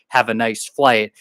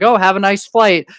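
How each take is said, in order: First: It is said in a heavy, meaningful tone. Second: It is said in a casual, friendly tone.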